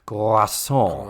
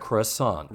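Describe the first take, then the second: First: It is said the French way, with a rolled R. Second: It is said with an American accent.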